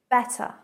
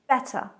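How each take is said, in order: First: The middle T is a clearly pronounced T. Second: The same.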